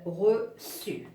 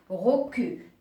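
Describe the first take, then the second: First: The c is pronounced as an s sound. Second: The c is pronounced as a k sound. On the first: "je dois lui ajouter la cédille pour prononcer euh, reçu" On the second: "si j'écris de cette façon, ça va prononcer recu"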